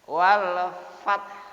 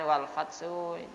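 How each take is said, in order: First: The final consonant ends cleanly with no vowel. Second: The final consonant is released with an added vowel. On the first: The speaker calls it right. "Wal fath gitu ya" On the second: The speaker calls it wrong. "Jangan jangan wal fatsu ... tidak boleh ya"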